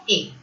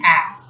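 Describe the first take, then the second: First: "A" as a closed "ay"; wrong vowel. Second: "A" as an open "æ"; correct open vowel. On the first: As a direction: say "A" like the letter name. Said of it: "you should not directly pronounce it as". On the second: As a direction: say "A" like the vowel in "air". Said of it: "It should be". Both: Shown as a demonstration.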